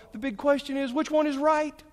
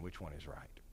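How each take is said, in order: First: Mock eager question. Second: Much lower and softer, dropping the question away; hushed dismissal. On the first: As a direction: ask it high and loud, all worked up. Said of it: "That's not the question". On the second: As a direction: set the question down quietly, unimpressed. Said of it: "Don't ask that question". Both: Shown as a demonstration.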